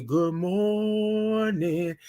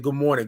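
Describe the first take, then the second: First: Very slow, stretched "Good morning"; teaching the proper slow morning greeting; drawn-out greeting. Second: Said in the usual way. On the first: Shown as a demonstration. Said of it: "That's how you gotta say it". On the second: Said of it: "Willie said".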